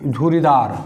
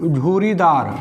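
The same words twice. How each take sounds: The two takes are said the same way.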